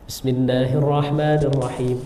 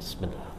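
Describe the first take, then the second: First: The basmalah is recited aloud. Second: The basmalah is recited quietly.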